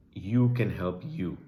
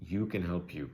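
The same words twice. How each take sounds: First: YOU landed loud and slow; slow, loud stress on the final "you"; emphatic urging. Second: Said in the usual way. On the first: Real, not acted. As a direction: press "you can help you" home, loud and slow. Urging viewers to help themselves.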